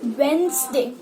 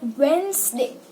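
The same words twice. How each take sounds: First: The middle 'd' is left out. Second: The middle 'd' is left out.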